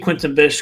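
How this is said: The name is said with an American accent. "I'm going to say Quentin Bish because I am an ignorant American"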